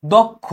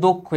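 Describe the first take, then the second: First: দক্ষ with an open "aw" first vowel; wrong pronunciation. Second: দক্ষ with a closed "o" first vowel; corrected pronunciation. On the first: Teacher showing students the mistake, দক্ষ with an open vowel. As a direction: say দক্ষ as "dawk-kho". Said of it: "এটা কিন্তু দক্ষ না". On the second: Teacher correcting students, দক্ষ with a rounded o. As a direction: say দক্ষ as "dok-kho". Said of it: "এটা হবে দক্ষ". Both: Shown as a demonstration.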